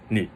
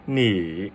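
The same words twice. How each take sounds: First: Said in the usual way. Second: 你 drawn out through a dip and rise; exaggerated third tone. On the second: Shown as a demonstration. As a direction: overdo the down-up swoop on 你. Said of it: "It's not like".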